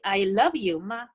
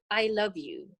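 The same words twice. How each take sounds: First: "I love you" with light "ma" tacked on the end; question with ma. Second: Said in the usual way. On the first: Shown as a demonstration. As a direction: add short "ma" to make it a question. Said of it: "it's a question". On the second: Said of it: "it's a sentence".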